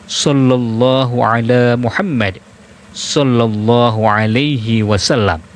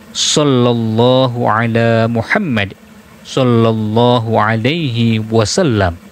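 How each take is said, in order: The two takes are said the same way.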